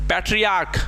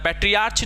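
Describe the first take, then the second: First: The word ends with a 'k' sound. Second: The word ends with a 'ch' sound. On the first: The speaker calls it right. "सी एच का उच्चारण च नहीं होता है" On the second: The speaker calls it wrong. "पैट्रियार्च नहीं होता है"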